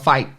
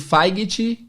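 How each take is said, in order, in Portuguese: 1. É pronunciada naturalmente, com o gh mudo. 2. É pronunciada do jeito que está escrita. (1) "aí a pessoa fala" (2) "a gente está esperando ouvir"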